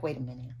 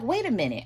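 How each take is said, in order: First: Much softer and lower, to yourself; hushed realization. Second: Said in the usual way. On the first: Retold or imitated. Reader voicing a viewer's private realization, hushed and low. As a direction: murmur it as a dawning thought. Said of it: "you were like". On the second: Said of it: "You were like".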